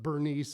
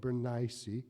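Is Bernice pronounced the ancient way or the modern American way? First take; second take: modern American; ancient. First: The name has its present-day American pronunciation. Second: The name has its old, original pronunciation. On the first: "now how we pronounce it here in America" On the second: "Back then it would have been Bernice. That's how you pronounce it"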